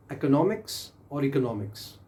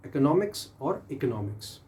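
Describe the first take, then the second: No difference in how they are said.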